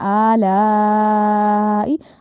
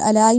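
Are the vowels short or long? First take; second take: long; short. First: The vowels are drawn out long. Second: The vowels are said short. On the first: The speaker calls it right. "अलिफ पे खड़ी जबर है, लाम पे बड़ी मद है" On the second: The speaker calls it wrong. "अलाई नहीं कहना"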